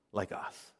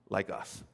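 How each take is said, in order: First: Breathy near-whisper, almost no voice; hushed "like us" to close the thought. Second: Said in the usual way. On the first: Real, not acted. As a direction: let it fall to a hush. Soft close of a sermon point.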